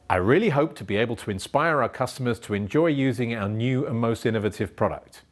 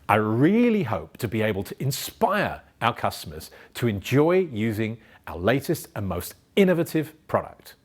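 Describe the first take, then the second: First: It is flat, with no emphasis or energy. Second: It is varied, with emphasis and energy.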